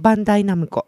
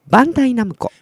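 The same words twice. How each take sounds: First: It is said flat, with no breath push. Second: Breath is pushed out on the first syllable. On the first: "普通に言うと、うん、平板で言うと" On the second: "でもバで息を吐くと"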